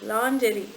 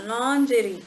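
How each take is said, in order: First: It starts with 'lon' and uses a soft j. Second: The same.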